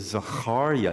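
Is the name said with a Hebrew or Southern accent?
Hebrew. It is said with Hebrew pronunciation.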